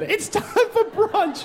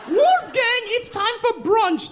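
First: Much higher, slow prim repeat; drawn-out sing-song mom call; posh mom again. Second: Much higher prim mock mother; sing-song call of an upscale mom; posh mom. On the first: Retold or imitated. Comic repeating the mother's brunch call, high and slow. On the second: Mother calling her son to brunch, high prim call. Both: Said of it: "That's what the woman said".

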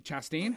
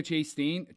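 First: "Chastain" with a short A, as in "chat"; short A first syllable. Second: "Chastain" with the first syllable said like "chase". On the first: Checking the actress's surname, questioning "Chastain" as CHASS-tain. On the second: Unsure of the actress's surname, trying "Chastain" as CHASE-tain. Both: Shown as a demonstration. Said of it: "How do you say her last name?".

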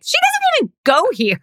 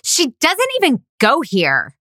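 First: Much higher put-on voice for the snide line; mock his deadpan jab, pitched way up; a higher, more put-on take of the same quote; imitating Damon. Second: Lightly voiced high-pitched mean girl jab; movie quote in a put-on voice; quoting a movie line. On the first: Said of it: "And Damon is like". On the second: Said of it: "my heartfelt performance".

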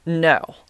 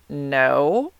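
First: Said in the usual way. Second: Drawn-out, rising, unconvincing denial; guilty-sounding no. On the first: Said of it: "this is the way I said it". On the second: Retold or imitated. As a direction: imitate your own guilty lie, voice sliding upward. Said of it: "That sounds so guilty".

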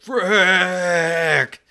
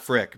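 First: "Frick" held very long on a high, falling pitch; drawn-out exclamation. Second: Said in the usual way. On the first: Retold or imitated. Customer discovering a missing order, long agonized "Frick". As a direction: stretch "Frick" out in mock exasperation. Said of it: "but not frick, but, "Frick". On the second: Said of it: "but not frick".

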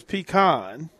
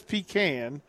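First: "pecan" as PEE-kahn, open ah; pronunciation PEE-kahn. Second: "pecan" as a drawn-out PEE-can; pronunciation PEE-can. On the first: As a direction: end "pecan" on kahn, not tin can. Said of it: "The other texter says". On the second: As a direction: say "pecan" slowly, ending like tin can. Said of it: "Matt says". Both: Retold or imitated.

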